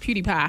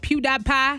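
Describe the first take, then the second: First: The middle syllable does not sound like 'die'. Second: The middle syllable sounds like the word 'die'. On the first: The speaker calls it right. "no, it's PewDiePie" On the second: The speaker calls it wrong. "I said it wrong the first time I said it on air"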